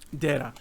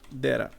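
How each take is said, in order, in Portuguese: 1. As duas palavras são ditas juntas, como uma só. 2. As duas palavras são ditas juntas, como uma só.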